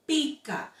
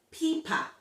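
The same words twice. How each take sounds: First: Pica with clear k; correct word. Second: Pipa with p in place of c; guest's misreading. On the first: Shown as a demonstration. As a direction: pica mit deutlichem k. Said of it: "instead of". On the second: Retold or imitated. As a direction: pipa statt pica. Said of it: "she said".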